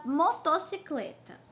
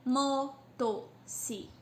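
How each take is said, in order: First: Said in the usual way. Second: "Motocicleta" slowly as "mo... to... ci... cle... ta"; five separate beats on "Motocicleta", pausing between; syllable by syllable. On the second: Shown as a demonstration. Teacher counting five syllables aloud, "Motocicleta" broken at each one. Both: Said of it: "tem cinco".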